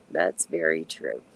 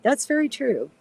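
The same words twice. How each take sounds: First: Much lower and slower, a mock-deep echo. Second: Said in the usual way. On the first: Shown as a demonstration. Echoing a viewer's point to the stream in a deep, slow mock voice. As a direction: drop the voice way down and drag it out. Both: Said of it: "repeats viewer comment in two voices".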